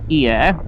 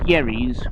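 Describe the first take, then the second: First: The name is said with French sounds. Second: The name is said with English sounds. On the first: "the French pronunciation is Hyères" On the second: "If you're English, it's pronounced Yerries"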